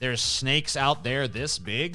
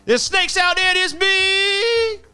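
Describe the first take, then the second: First: It is said in the speaker's plain own voice. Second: It imitates the original actor's delivery of the line.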